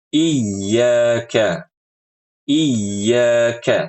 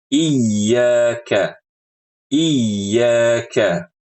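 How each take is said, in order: No difference in how they are said.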